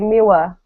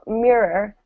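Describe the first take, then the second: First: The r sounds are replaced by a w-like sound. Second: The r sounds are pronounced as clear r sounds. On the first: The speaker calls it wrong. "They say miwa, right? Kids say that" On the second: The speaker calls it right. "So mirror"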